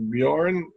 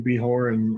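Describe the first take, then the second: First: The J is neither H nor dropped. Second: The J is sounded like an H. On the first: The speaker calls it right. "but it's properly pronounced Bjorn" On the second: The speaker calls it wrong. "the J is pronounced like an H"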